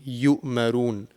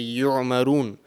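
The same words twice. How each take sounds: First: The middle consonant is a glottal stop. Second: The middle consonant is a tight throaty Ain. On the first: The speaker calls it right. "So over here it will be yu'marun" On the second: The speaker calls it wrong. "they will pronounce the letter Ain and they will say yu'marun, which is wrong"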